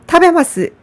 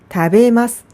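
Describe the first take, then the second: First: The first syllable is strong and high. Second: The syllable ma is slightly higher. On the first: The speaker calls it wrong. "타를 너무 강하고 높게 발음하는 경향이 있더라고요. 타베마스 이렇게 발음하지 마시고" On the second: The speaker calls it right. "다베마스 이렇게 발음해 보세요. 모든 마스형은 마 부분이 조금 높게 발음됩니다"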